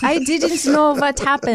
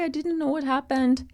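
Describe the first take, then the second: First: It is said in a strong Austrian accent. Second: It is said in a weak German accent. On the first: The speaker calls it right. "that's better. / that was Austrian" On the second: The speaker calls it wrong. "That was a German accent. / I know, it wasn't good"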